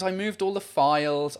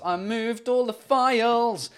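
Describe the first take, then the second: First: Said in the usual way. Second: Higher, drawn-out lament; exasperated lament. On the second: Real, not acted. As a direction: stretch it out in exasperation at yourself. Repeats it as a lament.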